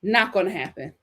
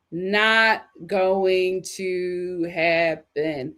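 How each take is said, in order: First: Said in the usual way. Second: Each word drawn out and spaced; very slow emphasis. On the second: Shown as a demonstration. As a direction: spell out "Not going to happen" slowly. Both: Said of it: "repeated for emphasis".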